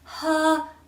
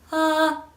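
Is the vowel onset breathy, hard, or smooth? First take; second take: breathy; smooth. First: The vowel starts with a puff of breath. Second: The vowel starts cleanly, without catch or breath. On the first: The speaker calls it wrong. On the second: The speaker calls it right.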